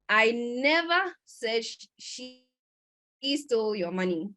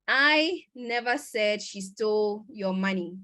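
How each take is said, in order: First: The stress is on the word never. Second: The stress is on the word I. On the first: The speaker did not ever say it. "this means that I didn't ever say it" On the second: Someone else said it, not the speaker. "which means someone else did, but not me"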